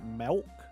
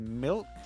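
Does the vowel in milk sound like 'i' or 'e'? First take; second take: e; i. First: The vowel sounds like a short 'e'. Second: The vowel sounds like a short 'i'. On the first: "some will end up saying like milk. And I'm like, how do you put an E in" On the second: "some people will say milk"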